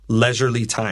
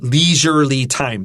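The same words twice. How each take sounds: First: The first vowel is a short e sound. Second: The first vowel is a long e sound. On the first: The speaker calls it right. "So we can say leisurely with a short e" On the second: The speaker calls it wrong. "We won't say uh, leisurely time. That's wrong"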